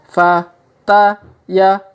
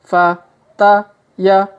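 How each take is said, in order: No difference in how they are said.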